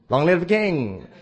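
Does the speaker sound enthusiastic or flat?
enthusiastic. It is said with lively enthusiasm. The new ruler is welcomed. "how am I going to say it?"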